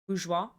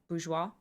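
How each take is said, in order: No difference in how they are said.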